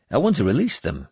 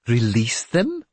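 First: Said in the usual way. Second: Startled question, rising at the end; taken aback, pitched up on a questioning rise; incredulous exclamation. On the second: A narrator's reading. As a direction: repeat it back in disbelief. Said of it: "Sigtrygr exclaimed".

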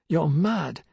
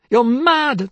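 First: Said in the usual way. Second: High, loud scream of the same words; shrieked retort. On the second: Acted. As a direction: throw it back at her as a scream.

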